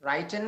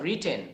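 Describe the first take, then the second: First: The first vowel sounds like 'eye'. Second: The first vowel sounds like 'ih'. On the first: The speaker calls it wrong. "রাইটেন না" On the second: The speaker calls it right.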